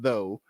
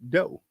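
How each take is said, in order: First: The word begins with a soft 'th' sound. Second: The word begins with a hard 'd' sound. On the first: This is the original form of the word. "it was shortened from though" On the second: This is the later, changed form. "it became dough"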